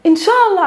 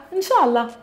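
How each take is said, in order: First: Inshallah said high and bright, a sincere hopeful wish; a real wish that it happens. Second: A vague non-answer that really means no; evasive inshallah. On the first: Teacher demonstrating the hopeful meaning, said high and eager. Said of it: "So it has two meanings". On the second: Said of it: "Here, inshallah, it means no". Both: Shown as a demonstration.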